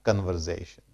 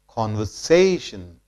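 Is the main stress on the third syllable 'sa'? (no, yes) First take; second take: no; yes. First: The stress is not on the third syllable. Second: The stress is on the third syllable. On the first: The speaker calls it wrong. "not conversation" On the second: The speaker calls it right. "more stress is laid on syllable say"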